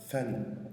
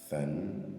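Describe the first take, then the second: First: It begins with a th sound, tongue between teeth. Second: It begins with a th sound, tongue between teeth.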